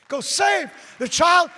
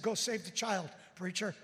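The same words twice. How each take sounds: First: Put-on slow, loud, high shout of "Go save the child". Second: Said in the usual way. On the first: Sergeant shouting the preacher on his way. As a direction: roar "Go save the child" at him. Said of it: "repeated shouted".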